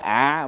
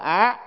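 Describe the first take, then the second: First: The syllable is said with a low, glottalized tone. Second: The syllable is said with a high rising tone. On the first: "chứ không phải ạ" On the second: "mà cũng phải là á"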